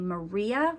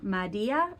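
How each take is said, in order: First: The R is a rhotic, curled R sound. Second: The R is replaced by a D sound. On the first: "which would be a rhotic R" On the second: "you could say a D sound"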